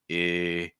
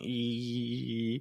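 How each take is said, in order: First: The vowel resonates lower with fuller sound. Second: The vowel resonates high up in the head. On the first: "it wants more resonance. It's using a lower projection" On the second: "where the placement's really high. You can feel your head kind of shaking"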